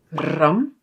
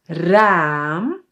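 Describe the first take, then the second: First: "ram" with a short Dutch a; "ram" said with a quick "ah"; short vowel. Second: "raam" with a long aa; "raam" stretched on its vowel. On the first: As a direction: keep the a in "ram" brief. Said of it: "one with a short sound". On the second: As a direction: draw out the aa in "raam". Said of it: "one with a longer". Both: Shown as a demonstration.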